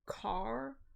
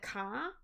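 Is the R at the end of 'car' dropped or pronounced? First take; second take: pronounced; dropped. First: The final R sound is clearly pronounced. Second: The final R sound is dropped. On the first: This is how the speaker says it. "I say car, and I pronounce my A's" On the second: This is how locals say it. "They don't pronounce the R's"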